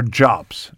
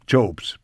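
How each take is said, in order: First: "Jobs" with a short o, like "jobz"; short, open vowel in "Jobs"; short-o pronunciation. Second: "Jobs" with a long o, like "Jobes"; long "oh" vowel in "Jobs"; long-o pronunciation. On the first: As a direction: say "Jobs" to rhyme with "mobs". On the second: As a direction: say "Jobs" to rhyme with "robes". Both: Shown as a demonstration. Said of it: "Is it Jobs or Jobs".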